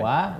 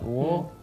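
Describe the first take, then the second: First: The syllable is said thin, with an open vowel. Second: The syllable is said thick, with a dark vowel. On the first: The speaker calls it right. "Harus dibaca dengan tipis" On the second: The speaker calls it wrong. "wawunya dibaca dengan tebal"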